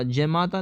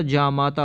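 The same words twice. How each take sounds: First: जय माता with the vowel ay, like jay; wrong form shown. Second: जा माता with a long open aa, जा not जय; correct form. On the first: Teacher warning students, जय माता said with ay. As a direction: say जय माता as the common slip. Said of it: "जय माता नहीं होता". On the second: Teacher to students, जा माता said with a long aa. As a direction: stress जा, long aa. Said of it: "जा माता होता है". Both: Shown as a demonstration.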